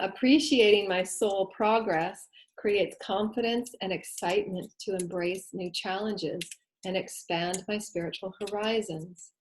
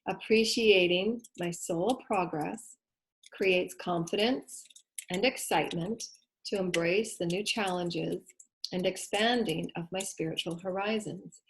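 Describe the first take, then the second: First: It is read at a normal pace. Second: It is read really slowly.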